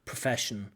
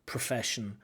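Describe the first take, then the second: First: The unstressed vowels are reduced to schwa. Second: The same.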